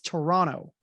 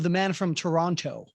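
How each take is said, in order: First: The second T in Toronto is dropped. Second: The second T in Toronto is clearly pronounced. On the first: This is how locals say the city's name. The speaker calls it right. "you do not pronounce that second T" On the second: This is how outsiders say the city's name. The speaker calls it wrong. "they keep saying"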